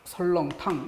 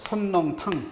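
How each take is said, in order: First: The first syllable ends in an l sound. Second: The first syllable ends in an n sound. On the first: The speaker calls it right. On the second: The speaker calls it wrong.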